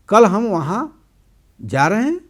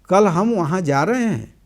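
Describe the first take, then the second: First: It is said with a question intonation. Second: It is said with a statement intonation. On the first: It asks for confirmation. "प्रश्न।" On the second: It tells a fact. "कथन।"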